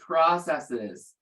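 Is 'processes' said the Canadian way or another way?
another way. Processes is said in a non-Canadian way. "it's not the way I pronounce it"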